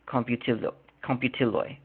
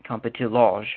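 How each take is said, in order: First: The final letter sounds like English Y. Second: The final letter sounds like English J. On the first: The speaker calls it right. "but it's computiloj. J is pronounced as a Y" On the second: The speaker calls it wrong. "so it looks like computiloj"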